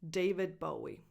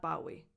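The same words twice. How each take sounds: First: David Bowie with Bowie as BOH-ee; correct pronunciation. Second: Bowie with BOW as in take a bow; wrong pronunciation. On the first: Teacher modelling the singer's name, correct pronunciation. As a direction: say David Bowie, first syllable of Bowie like bow and arrow. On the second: Teacher showing learners what to avoid, wrong pronunciation. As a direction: say Bowie wrongly, first syllable rhyming with now. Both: Shown as a demonstration.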